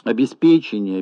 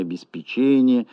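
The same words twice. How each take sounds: First: «Обеспечение» stressed on the syllable «пе»; early stress, обесПЕчение. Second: «обеспечение» stressed on the syllable «че». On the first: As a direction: hit «пе» in «Обеспечение», not «че». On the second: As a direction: hit «че» in «обеспечение», not «пе». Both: Shown as a demonstration. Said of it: "Колебания в ударении слов".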